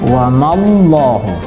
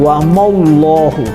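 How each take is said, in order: First: The 'ma' syllable is light and thin. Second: The 'ma' syllable is heavy and thick. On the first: The speaker calls it right. "Sementara mimnya nggak nggak nggak tebal" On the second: The speaker calls it wrong. "Tapi jangan sampai dibaca"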